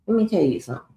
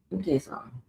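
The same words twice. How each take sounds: First: Said in the usual way. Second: Soft repeat of let me tell you something; much softer repeat. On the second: Real, not acted. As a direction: say it again under your breath.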